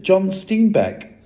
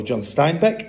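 First: "John Steinbeck" with Stein said as "steen", falling; mispronounced name. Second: "John Steinbeck" with Stein said as "stine", rising; corrected name. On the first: Matilda first names the author as steen-beck, high. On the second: Matilda corrects the author's name to stine-beck. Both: Shown as a demonstration. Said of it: "or John Steinbeck".

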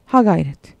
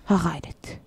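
First: Said in the usual way. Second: "Ha gayret" diye fısılda, sessizce; fısıltı. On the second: Acted. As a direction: kendine gizlice moral verir gibi fısılda. Same cheer repeated in a whisper. (fısıltıyla "Ha gayret")

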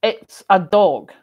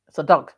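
First: DOG said slow and loud with a full O; elocution-lesson DOG, vowel held long; standard pronunciation. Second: DUG with a short UH vowel for dog; playful Scots DUG in place of dog; Scots pronunciation. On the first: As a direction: draw out DOG in careful standard English. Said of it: "Up here it's not". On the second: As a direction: say DUG the local Scottish way. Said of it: "now do it for fun". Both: Shown as a demonstration.

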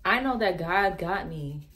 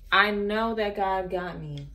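First: Said in the usual way. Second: I know that God got me said slower, each word weighted; slow, firm restatement of faith; slow emphatic repeat. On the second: Real, not acted. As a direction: repeat it slowly, with conviction.

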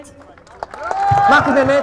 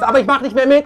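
First: „Ich mach nicht mehr mit“ sehr langsam, höher, jedes Wort einzeln gesetzt; langsam betont. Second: Said in the usual way. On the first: Real, not acted. Redner wiederholt seinen Entschluss. (Redner vor der Menge, langsam und nachdrücklich betont)

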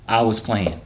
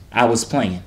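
Both takes have the same delivery.

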